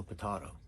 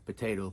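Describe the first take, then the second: First: "potato" as puh-TAH-toh; alternative pronunciation. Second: "potato" as puh-TAY-toh; usual pronunciation. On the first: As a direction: say "potato" with a broad TAH in the middle. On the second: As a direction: say "potato" with a long TAY in the middle. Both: Shown as a demonstration. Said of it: "it's kinda up to you".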